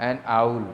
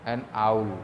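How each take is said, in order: The two takes are said the same way.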